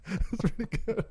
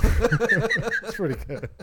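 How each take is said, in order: First: Said in the usual way. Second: Slow, laughing through the words. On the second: Real, not acted. Cracking up at a cohost's joke, laughing. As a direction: let the laugh carry "That's pretty good.".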